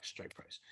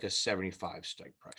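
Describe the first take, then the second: First: Whispered, under the breath; whispered repeat. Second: Said in the usual way. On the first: Real, not acted. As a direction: mutter it again to yourself in a whisper.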